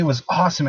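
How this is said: It is said with lively enthusiasm.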